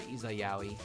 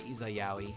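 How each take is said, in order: First: The name is said as Izayaoi. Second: The same.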